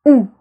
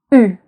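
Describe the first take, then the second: First: "U" as a back "oo" vowel; French ou sound. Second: "U" as a tight front rounded vowel; French u sound. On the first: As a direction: say "U" like the oo in food, short. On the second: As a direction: say "U" as ee through rounded lips. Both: Shown as a demonstration. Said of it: "Do you hear the difference between".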